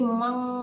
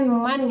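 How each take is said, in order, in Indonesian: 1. Bunyi sengau di akhir itu kabur menjadi dengung hidung. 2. Bunyi n di akhir itu pendek dan terpotong. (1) "disamarkan ke eng, mang dengung ya Bu" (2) "jangan man ya Bu"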